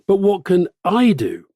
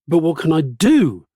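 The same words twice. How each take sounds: First: The stress falls on the word I. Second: The stress falls on the word what.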